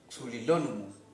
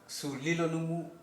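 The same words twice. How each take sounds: First: The stress falls on the syllable lo. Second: The stress falls on the syllable li. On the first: "o en esta O fonética" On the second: "la fuerza del acento se puede hacer en I"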